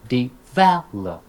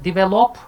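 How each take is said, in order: First: Slow "develop" as de-VEL-op; correct syllable stress. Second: "develop" with misplaced stress, high and loud, rising; high, loud wrong-beat "develop"; mispronounced stress. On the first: Teacher correcting a common error, middle stress. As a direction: punch VEL in a drawn-out "develop". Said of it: "teach them the correct pronunciation". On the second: Teacher quoting a common error, misplaced stress. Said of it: "commonly mispronounced". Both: Shown as a demonstration.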